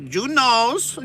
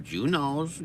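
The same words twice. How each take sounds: First: Very high, loud squeal; squealed pun. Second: Higher, louder put-on voice; mock knowing voice. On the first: Pretend. Repeating the pun as a very high, loud squeal. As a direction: shriek the pun. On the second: Repeating the pun in a higher put-on voice. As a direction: sing out the pun playfully.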